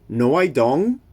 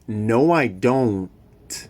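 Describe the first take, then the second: First: The final T in don't is dropped. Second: The final T in don't is clearly pronounced. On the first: The speaker calls it wrong. "It's not" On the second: The speaker calls it right. "Be careful with the final T in don't"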